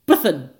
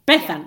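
First: The stress is on the second syllable. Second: The stress is on the first syllable. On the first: This is the non-Welsh way of saying the name. The speaker calls it wrong. "calling her Bethan, with the stress on the second syllable" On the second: This is the Welsh way of saying the name. The speaker calls it right. "Bethan, with the stress on the first syllable"

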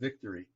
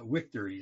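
First: The word begins with a V sound. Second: The word begins with a W sound. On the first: "instead of victory" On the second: "they pronounce them with W's. So they would say like victory"

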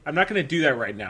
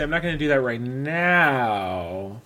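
First: The words 'right now' are not emphasized. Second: The words 'right now' are strongly emphasized. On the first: "I don't say" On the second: "I make sure to emphasize it that I say right now"

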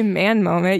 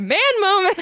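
First: The words are said flatly, with little energy. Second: The words are said excitedly, with lots of energy. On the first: The speaker calls it wrong. "You can't just say Man Moment" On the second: The speaker calls it right. "You got to say Man Moment"

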